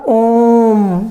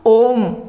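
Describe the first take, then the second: First: The vowel is held twice as long. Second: The vowel has normal length.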